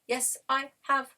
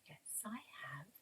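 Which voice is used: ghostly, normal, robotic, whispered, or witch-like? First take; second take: robotic; normal. First: It is said in a robotic voice. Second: It is said in a normal speaking voice.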